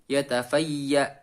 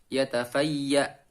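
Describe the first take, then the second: No difference in how they are said.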